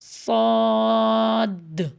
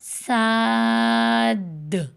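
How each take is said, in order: First: The mouth is not spread on the vowel. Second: The mouth is spread wide on the vowel. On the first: "अब मैं मुँह चौड़ा नहीं करूँगी" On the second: "मुँह चौड़ा करूँगी"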